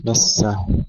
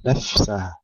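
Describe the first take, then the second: First: نسه said with the ف dropped, a wrong take; wrong pronunciation. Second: نفسه with a clear, whispered ف and no echo; correct whispered fa. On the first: Tajweed teacher shows the wrong form, careless. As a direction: mispronounce نسه by swallowing the ف. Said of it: "ليس نفسه وليس نسه". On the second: Tajweed teacher models the right form, hushed. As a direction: breathe the ف in نفسه softly, no bounce. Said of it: "إظهار الفاء مع همسها". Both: Shown as a demonstration.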